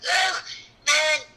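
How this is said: The voice sounds strained, as if in pain. The character is straining and hurting. "there's a expression of pain on his face"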